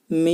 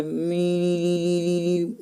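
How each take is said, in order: First: मी said cleanly with no sound through the nose; correct mim. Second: मी said drawn out through the nose, the wrong way; nasal wrong mim. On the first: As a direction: show the right मी, not nasal. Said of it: "ऐसे अदा करना है". (बिना नाक की आवाज़ के साफ़ मी) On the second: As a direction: show the faulty nasal मी slowly. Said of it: "ऐसे नहीं पढ़ना है". (नाक से निकली गलत मी) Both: Shown as a demonstration.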